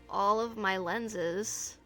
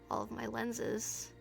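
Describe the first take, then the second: First: The deep voice is smooth, without rasp. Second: The deep voice has a rough, raspy edge. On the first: The speaker calls it wrong. "Hold on, I forgot to get the rasp" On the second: The speaker calls it right. "There we go"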